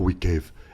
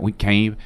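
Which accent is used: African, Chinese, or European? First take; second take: African; Chinese. First: It is spoken in an African-sounding accent. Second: It is spoken in a Chinese-sounding accent. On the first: "Africa, they're gonna be like, oh" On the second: "In fucking China, they're gonna be like"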